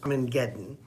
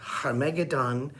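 First: The word begins with a vowel sound. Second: The word begins with an H sound. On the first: "or as most people pronounce it" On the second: "or Harmageddon"

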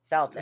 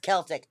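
First: The word begins with a soft s sound. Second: The word begins with a hard k sound. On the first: This is the form that comes out by habit. The speaker calls it wrong. "my mouth chooses to say Celtic" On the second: This is the form the speaker knows is correct. The speaker calls it right. "I know it's Celtic"

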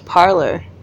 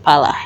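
First: The word is said with an R sound. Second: The word is said without any R sound. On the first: This is the British form of the word. "it's parlor" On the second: This is the Krio form of the word. "we don't pronounce R's"

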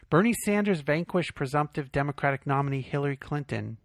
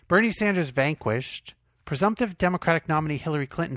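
First: It runs on without a pause after vanquished. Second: There is a pause after vanquished.

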